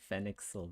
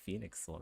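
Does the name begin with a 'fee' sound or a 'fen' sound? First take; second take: fen; fee. First: The name begins with a short 'fen' sound. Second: The name begins with a long 'fee' sound. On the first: The speaker calls it wrong. "they're mispronouncing his name. Like they're calling him like Fenixel" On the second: The speaker calls it right. "it's obviously supposed to be like Phoenixel"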